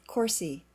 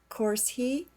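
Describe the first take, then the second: First: The h sound in 'he' is dropped. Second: The h sound in 'he' is pronounced.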